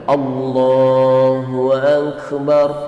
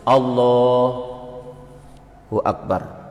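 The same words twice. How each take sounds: First: It is said straight through without a pause. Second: There is a pause between Allahu and Akbar.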